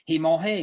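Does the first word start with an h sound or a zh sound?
h sound. The first sound is a breathy h. "In Lower Lafourche Parish, they aspirate their J's"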